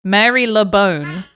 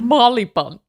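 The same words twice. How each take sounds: First: Mary Le Bone sounded out as three slow separate words; Mary Le Bone, every part fully pronounced; spelling pronunciation. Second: Marylebone squashed into MAR-li-bun; local pronunciation. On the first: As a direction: read Mary Le Bone exactly as spelt. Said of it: "it's spelt Mary Le Bone". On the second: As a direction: say Marylebone as "Marlibun", last syllable reduced. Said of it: "but it's pronounced Marylebone". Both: Shown as a demonstration.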